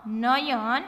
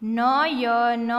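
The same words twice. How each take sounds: First: Said in the usual way. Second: Slow, letter-by-letter reading; sounded out. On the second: Shown as a demonstration. Teacher showing beginners the letters, sounded out. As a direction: stretch નયન out as na-ya-na.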